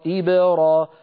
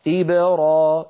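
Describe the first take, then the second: No difference in how they are said.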